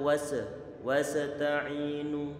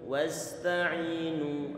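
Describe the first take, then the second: First: The s sound bounces with a clipped echo. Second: The s sound flows smoothly without any bounce. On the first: The speaker calls it wrong. "Tidak boleh kita baca wasa wasta'inu" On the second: The speaker calls it right. "kita alirkan suaranya"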